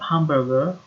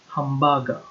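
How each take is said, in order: First: The R sound is pronounced in the word. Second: The R sound is dropped from the word. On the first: "not hamburger" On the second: "There is no R sound there"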